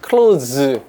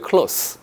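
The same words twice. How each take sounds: First: It is said the way the verb sounds. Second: It is said the way the adjective sounds. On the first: It means to shut something. "close 가 되면 이게 동사입니다" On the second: It means near to something. "close는 형용사입니다"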